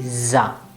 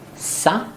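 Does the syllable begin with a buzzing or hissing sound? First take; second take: buzzing; hissing. First: The syllable begins with a voiced buzzing z. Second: The syllable begins with a voiceless hissing s. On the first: The speaker calls it right. "but it will be za" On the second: The speaker calls it wrong. "It will not be sa"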